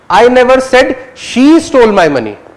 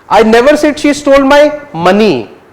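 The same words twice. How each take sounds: First: The word "she" carries the main stress. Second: The word "money" carries the main stress. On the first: Someone else may have stolen it. "you're focusing on whether she or he" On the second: Something else may have been stolen. "Might have stolen something else"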